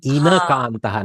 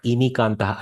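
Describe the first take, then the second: First: The second syllable has an 'a' vowel. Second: The second syllable has an 'i' vowel. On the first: The speaker calls it right. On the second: The speaker calls it wrong. "not Inikantaha"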